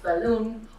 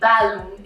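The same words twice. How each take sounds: First: The stress is on the second syllable. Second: The stress is on the first syllable. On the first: The speaker calls it right. "instead of balloon" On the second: The speaker calls it wrong. "you wouldn't say balloon"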